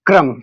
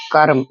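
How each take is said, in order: First: क्रम with क joined straight to र, vowel after र; half क, full र. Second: कर्म with vowel after क, then र joined to म; half र before म. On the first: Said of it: "क आधा बोल रहे हैं हम और र पूरा". (क्रम में आधा क, पूरा र) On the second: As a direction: say कर्म as "karm", र closing onto म. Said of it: "र पहले बोल रहे हैं और व्यंजन बाद में". (कर्म में पूरा क, आधा र) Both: Shown as a demonstration.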